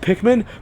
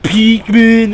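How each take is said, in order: First: The first syllable has a short 'pick' vowel. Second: The first syllable has a long 'peek' vowel.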